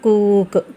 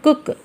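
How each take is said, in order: First: The vowel is drawn out long. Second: The vowel is short and quick. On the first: The speaker calls it wrong. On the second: The speaker calls it right.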